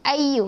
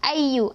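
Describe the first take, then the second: First: The doubled y is barely pressed and short. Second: The doubled y is barely pressed and short.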